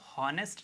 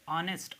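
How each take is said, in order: First: The h sound at the start is pronounced. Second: The h sound at the start is silent. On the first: The speaker calls it wrong. "इसको हॉनेस्ट नहीं कहेंगे" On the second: The speaker calls it right. "इसे हम कहेंगे ऑनेस्ट"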